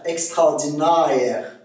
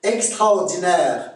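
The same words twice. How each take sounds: First: "Extraordinaire" slowly, ending na-ère; Québécois diphthong. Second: Said in the usual way. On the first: Shown as a demonstration. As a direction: stretch the end of "Extraordinaire" into ah-eh. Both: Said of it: "c'est A E".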